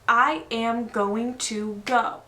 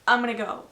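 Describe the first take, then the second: First: Every word is said fully, with no reduction. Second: The words are contracted and reduced to 'I'm gonna'. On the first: "He doesn't say" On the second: "This is very common. I speak like this"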